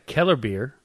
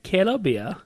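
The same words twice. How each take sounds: First: It is said with a plain American accent. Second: It is said with a put-on German accent.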